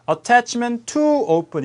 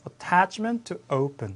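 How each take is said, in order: First: The word 'to' is stressed. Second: The word 'to' is reduced. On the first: The speaker calls it wrong. "이렇게 하시는 게 아니고" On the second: The speaker calls it right. "강세를 줄였죠"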